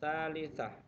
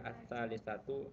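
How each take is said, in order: First: The word ends in a silent 'ah' ending. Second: The word ends in a voweled 'atu' ending. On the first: "sengaja Bapak matikan" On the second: "kalau dibariskan jadi"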